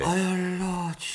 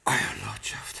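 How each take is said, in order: First: High, astonished cry; astonished exclamation. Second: Breathless, stunned whisper. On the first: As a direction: blurt it out in disbelief. Butler recovers, exclaims. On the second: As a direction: barely get the words out. Butler sees presumed-dead lord. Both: Acted.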